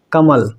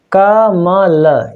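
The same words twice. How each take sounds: First: Said in the usual way. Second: कमल drawn out very slowly, syllable by syllable. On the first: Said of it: "देखिए, जैसा क्या लिखा है". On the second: Shown as a demonstration. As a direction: spell out कमल slowly for the class. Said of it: "हम इसको जो है विखंडन करना सीखेंगे". (कमल को धीरे-धीरे अक्षर तोड़कर)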